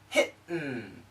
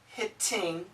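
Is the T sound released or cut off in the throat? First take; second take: cut off; released. First: The T is cut off by a glottal stop. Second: The T is fully released with the tongue.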